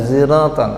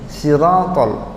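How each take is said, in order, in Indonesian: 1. Di awal ada bunyi di antara s dan z. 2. Di awal ada bunyi s biasa. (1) "ada yang pakai ada antara sod sama za" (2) "ada yang pakai sin"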